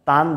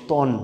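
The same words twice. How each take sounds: First: তান with a clear "aa"; open A vowel. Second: তন with a heavy rounded "o"; silent A-vowel. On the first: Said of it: "তান বলবো না". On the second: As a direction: say তন as "ton", no open "aa". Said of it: "বলবো তন". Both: Shown as a demonstration.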